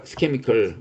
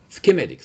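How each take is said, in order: First: "schemical" said as SKEM-ih-cal, a slip for schematic; "schemical" as a botched try at schematic; mispronounced word. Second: "Schematic" said clearly as skem-AT-ic; "Schematic" said correctly as the self-correction; corrected word. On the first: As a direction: stumble and say "schemical" with a hard k. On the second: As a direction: fix the slip by landing "Schematic" firmly. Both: Real, not acted. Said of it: "sorry, schematic".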